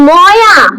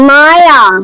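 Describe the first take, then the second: First: The first syllable sounds like 'mo'. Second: The first syllable sounds like 'ma'. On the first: The speaker calls it wrong. "ময়া হবে না" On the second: The speaker calls it right. "M A Y A হয়"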